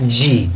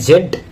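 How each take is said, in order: First: The letter is said as zee. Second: The letter is said as zed. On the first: "American ইংলিশে জি" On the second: "British ইংলিশে আমরা বলি জেড"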